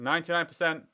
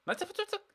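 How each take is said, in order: First: Said in the usual way. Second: High gleeful squeak; excited squeak. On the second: Real, not acted. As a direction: squeal it with glee. Gleeful repeat of the accuracy.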